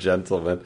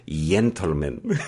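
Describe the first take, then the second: First: It is said with a plain English accent. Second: It is said with a Spanish-sounding accent. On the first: "instead of" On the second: "that kind of Spanish, ... Spain sort of accent"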